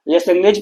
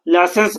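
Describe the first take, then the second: First: It is read letter by letter with a g. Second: It is said as la-sens with no g. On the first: This is the spelling, kept in mind for writing. The speaker calls it wrong. "हम लोग मन ही मन पढ़ लेंगे" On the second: This is how the name is actually pronounced. The speaker calls it right. "जब pronunciation करेंगे तो लासेंस का करेंगे"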